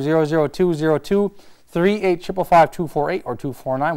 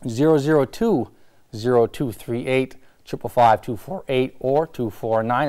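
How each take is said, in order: First: The number is said quickly. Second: The number is said more slowly.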